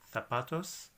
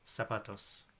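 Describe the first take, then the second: First: The z is said like a th sound. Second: The z is said like an s sound. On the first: "In Spain, they may say that letter like a th" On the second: "Just say it like an S"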